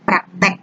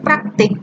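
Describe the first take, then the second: First: The last vowel is an 'e' sound. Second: The last vowel is an 'i' sound. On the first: This is the non-standard form. The speaker calls it wrong. "tidak bakunya praktek" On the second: This is the standard form. The speaker calls it right. "Kata baku praktik"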